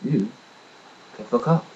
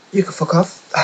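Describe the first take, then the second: First: "You can fuck off" in an even, level voice; very calmly. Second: High, loud mock blow-up; retold outburst. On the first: Retold or imitated. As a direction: say it coolly, no heat at all. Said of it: "I very calmly said". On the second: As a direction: fling it at him, loud and high. Retold telling off the agency.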